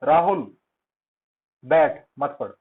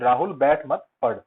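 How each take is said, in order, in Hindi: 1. एक छोटा विराम वाक्य को हिस्सों में बाँट देता है। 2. बिना किसी विराम के सीधे एक साथ बोला जाता है। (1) "मैंने जो वो माइक्रो सेकंड का पॉज लिया, उसकी लोकेशन मैंने बदल दी" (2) "मैंने कोई ब्रेक नहीं दिया।"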